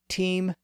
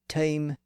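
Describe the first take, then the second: First: The vowel is a long high ee sound. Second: The vowel is a mid, centralized diphthong. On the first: This is the fourteenth-century pronunciation. "Chaucer would have said team in the thirteen hundreds" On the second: This is the late sixteenth-century pronunciation. "Shakespeare would have probably said time in the late fifteen hundreds"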